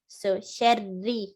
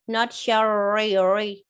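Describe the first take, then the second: First: The r is light. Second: The r is heavy. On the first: The speaker calls it right. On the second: The speaker calls it wrong.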